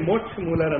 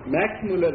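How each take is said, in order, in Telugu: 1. మొదటి పేరును బదులుగా 'moksh' అని పలుకుతారు. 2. మొదటి పేరును చిన్న 'max' ధ్వనితో పలుకుతారు. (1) "దయానంద సరస్వతి ఉచ్చారణ చేసింది ఏంటంటే మోక్ష్ మూలర్ అన్నట్ట" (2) "మ్యాక్స్ మూలర్ ని"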